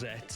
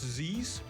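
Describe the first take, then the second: First: The name sounds like 'zets' with a t. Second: The name sounds like the letter Z plural. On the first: "Many people are pronouncing it as Zetz" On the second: "could be pronounced Z's"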